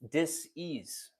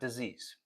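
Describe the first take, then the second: First: It is split into two parts, dis and ease. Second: It is said smoothly as one word. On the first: It means a lack of ease in the body. The speaker calls it right. "D I S, the little dash, ... and then ease" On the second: It means an illness. The speaker calls it wrong. "not disease"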